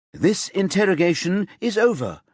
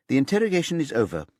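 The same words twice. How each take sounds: First: Sharp, loud, higher cut-off; said sharply. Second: Said in the usual way. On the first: A narrator's reading. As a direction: shut the interrogation down, sharply. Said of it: "Singina says sharply". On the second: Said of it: "Susanne Öst says".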